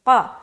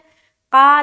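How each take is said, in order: First: The qa sound is heavy and rounded. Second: The qa sound is thin and unrounded. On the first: The speaker calls it right. "गोल करके क़ा" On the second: The speaker calls it wrong. "क़ा नहीं बोलना"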